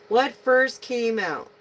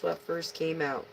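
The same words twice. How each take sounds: First: Higher, louder and slower, stress on "first"; louder repeat. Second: Said in the usual way. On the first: Shown as a demonstration. Reader asking herself which card came first, louder. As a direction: ask "What first came out?" again, firmer.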